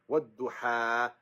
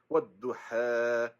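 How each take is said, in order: No difference in how they are said.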